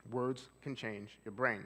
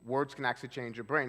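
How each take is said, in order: First: Slow, deliberate statement; unhurried calm delivery. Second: Said in the usual way. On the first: Shown as a demonstration. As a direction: let each word land slowly. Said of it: "I'm slowing my speech down".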